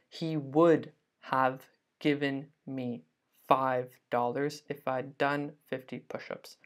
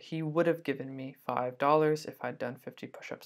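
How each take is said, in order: First: The word 'have' is said in full. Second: The word 'have' is reduced, sounding like 'of'. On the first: The speaker calls it wrong. "a native speaker would never say, even me, I'd never say" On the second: The speaker calls it right. "This have is not stressed. So we don't say this H here, okay? We say it like an of"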